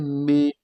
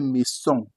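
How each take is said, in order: First: The middle consonant is a buzzing Z sound. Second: The middle consonant is a hissing S sound. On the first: The speaker calls it right. "You say maison. Why? Because the S is in between two vowels" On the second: The speaker calls it wrong. "You don't say maison, no"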